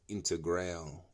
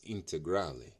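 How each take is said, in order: First: The name is pronounced in a non-Italian way. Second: The name is pronounced the Italian way. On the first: The speaker calls it wrong. "Some I hear some people say uh" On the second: The speaker calls it right. "It's Italian"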